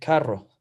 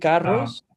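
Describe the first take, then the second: First: The final S is dropped. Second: The final S is pronounced. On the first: "the people from the west they don't pronounce the S" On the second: "en vez de decir"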